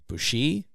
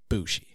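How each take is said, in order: First: The stress falls on the second syllable. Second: The stress falls on the first syllable. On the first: "You like put the emphasis on the I" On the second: "or is it Bushi?"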